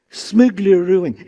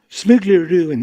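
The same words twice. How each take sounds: First: "Smuggle ruin" drawn out slowly, every syllable spelled out; slow teaching demo. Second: Said in the usual way. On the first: Shown as a demonstration. Leading the audience slowly through "Smuggle ruin". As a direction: model "Smuggle ruin" slowly for the crowd to repeat. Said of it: "They say it with me?". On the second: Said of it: "The other one is, is smuggle ruin".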